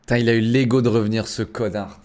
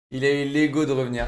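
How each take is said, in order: First: Annoyed rant. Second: Said in the usual way. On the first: Real, not acted. Angry at the enemy returning.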